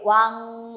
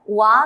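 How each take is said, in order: First: Slow "wan" with a humming nasal buzz in the throat; correct version. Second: "wa" cut off with no nasal ending; the incomplete "wa" a student might say; wrong version. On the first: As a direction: feel the throat vibrate on "wan". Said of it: "sentir una vibración aquí en la garganta". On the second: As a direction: show the mistake "wa", open vowel only. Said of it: "no es wa nomás". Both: Shown as a demonstration.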